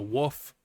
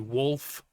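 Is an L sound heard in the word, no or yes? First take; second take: no; yes. First: It is said without an L sound. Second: It is said with an L sound. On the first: The speaker calls it wrong. "a wolf is a woof" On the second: The speaker calls it right. "with the L, like a normal person"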